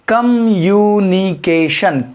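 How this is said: The word is broken into separate syllables. "तोड़ तोड़ के पढ़ सकते हैं"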